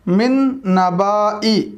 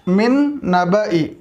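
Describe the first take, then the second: First: The vowel after 'nab' is long. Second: The vowel after 'nab' is short. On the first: The speaker calls it wrong. "लिखा हुआ है" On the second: The speaker calls it right. "लेकिन पढ़ेंगे मिन नबई"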